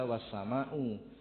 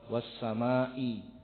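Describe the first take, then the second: First: The word ends with a u vowel. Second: The word ends with an i vowel. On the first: It simply means: and the sky. The speaker calls it wrong. "tidak boleh dibaca wassama'u" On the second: It is an oath: by the sky. The speaker calls it right. "kalau wassamai itu artinya demi"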